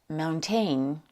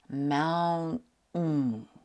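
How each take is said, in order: First: The middle t is fully pronounced. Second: The middle t is a glottal stop. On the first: The speaker calls it wrong. "If you think the word is pronounced mountain, I understand. It looks like it should be pronounced this way, but it's not" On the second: The speaker calls it right. "In slow motion, it's pronounced mountain. That last sound ... is called a glottal stop"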